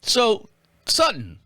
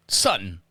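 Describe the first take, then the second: First: "Sutton" drawn out slowly, rising then falling; trying the name. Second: "Sutton" said low and short, falling; a quick low "Sutton"; trying the name. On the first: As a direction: sound out "Sutton" slowly and carefully. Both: Shown as a demonstration. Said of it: "Am I saying it right?".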